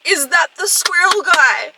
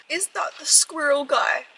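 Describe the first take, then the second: First: High, loud and slow alarmed question; rising panic, stretch it out; louder dread. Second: Said in the usual way. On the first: Real, not acted. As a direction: squirrel said louder and drawn out. Repeats dread question three times.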